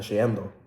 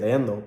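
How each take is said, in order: First: The word is said with a 'sh' sound. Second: The word is said with a plain 'y' sound. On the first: "but they say uh, shiendo" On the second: "I think it's like leyendo"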